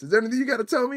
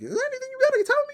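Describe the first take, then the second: First: It is said in a lower voice. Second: It is said in a very high voice.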